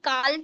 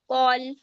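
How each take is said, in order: First: The vowel is an open 'ah' sound. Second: The vowel is a rounded 'aw' sound. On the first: The speaker calls it wrong. "तो हम काल तो बोलेंगे नहीं" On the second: The speaker calls it right. "कॉल है वो"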